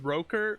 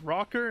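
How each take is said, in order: First: The name is said with a Dutch pronunciation. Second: The name is said with an English pronunciation. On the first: "the Dutch saying to it is Roker" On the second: "the English version is Rocker"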